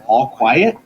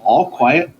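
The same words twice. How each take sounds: First: It is said as a question, rising. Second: It is said as a flat statement.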